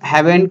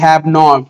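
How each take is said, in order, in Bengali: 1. এটি একটি সংকুচিত শব্দ হিসেবে বলা হয়। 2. এটি দুটি আলাদা পূর্ণ শব্দ হিসেবে বলা হয়।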